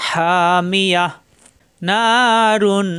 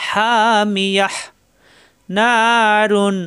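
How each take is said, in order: No difference in how they are said.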